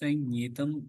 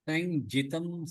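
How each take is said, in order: First: The middle cluster is a doubled nasal ny sound. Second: The middle cluster is a plain nj sound. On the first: The speaker calls it right. "ஞ அது ஜஞ்" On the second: The speaker calls it wrong. "சைஞ்சிதம் சொல்லதுக்கு"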